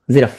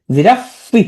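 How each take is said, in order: First: Said in the usual way. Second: "জিরাফি" with a raised, separate final "ফি"; spelling pronunciation. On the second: Shown as a demonstration. Teacher contrasting it with the usual word, ending sounded. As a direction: add a clear "ফি" ending to "জিরাফি". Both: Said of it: "উচ্চারণ করবে কি".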